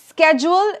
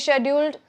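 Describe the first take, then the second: First: It is said with an American pronunciation. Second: It is said with a British pronunciation. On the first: "Schedule is an American pronunciation" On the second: "Brits say scheduled"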